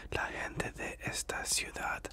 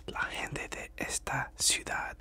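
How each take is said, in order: Both takes have the same delivery.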